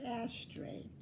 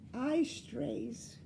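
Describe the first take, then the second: First: It is said in the ordinary English way. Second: It is said oddly, like 'I strays'.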